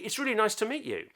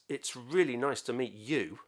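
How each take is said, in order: First: It sounds warm and sincere. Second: It sounds insincere and unconvinced. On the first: The speaker is genuinely glad to meet the person. "was said with a bit of sincerity" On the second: The speaker is not really glad to meet the person. "Exactly the same words, but very different meaning"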